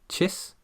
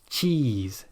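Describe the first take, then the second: First: The vowel is short with relaxed lips. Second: The vowel is long with tense, spread lips. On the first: The speaker calls it wrong. "you won't feel those muscles" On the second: The speaker calls it right. "tense those muscles"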